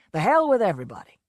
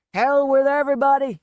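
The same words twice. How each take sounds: First: Said in the usual way. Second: Put-on drunken shout, higher and louder; a loud drunken roar. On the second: A narrator's reading. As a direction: bellow it out drunk. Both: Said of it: "he shouted".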